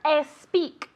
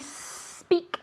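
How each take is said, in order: First: A vowel sound comes before the s. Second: The word starts directly with the s. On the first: The speaker calls it wrong. "It's never es speak" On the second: The speaker calls it right. "like a snake"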